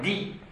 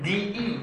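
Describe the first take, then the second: First: The i vowel is said only once. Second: The i vowel is said twice in a row. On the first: The speaker calls it right. "Ils font sauter le deuxième « i »" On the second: The speaker calls it wrong. "C'est une diphtongue désagréable pour eux"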